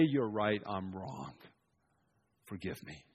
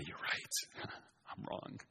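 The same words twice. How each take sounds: First: Soft, humble admission, sinking away. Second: Breathy whisper breaking into a laugh. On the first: Preacher models a humble reply to an angry ruler, soft and sinking. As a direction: give in gently, almost under the breath. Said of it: "for you to say". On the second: Child calming an angry parent, whispered with a laugh. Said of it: "be calm yourself and say". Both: Shown as a demonstration.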